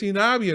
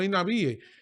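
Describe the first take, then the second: First: The final 'ie' is one gliding syllable. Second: The 'i' is stressed, splitting 'ie' in two. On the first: The speaker calls it right. "oye bien, es INAVIE" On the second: The speaker calls it wrong. "no, no INAVIE"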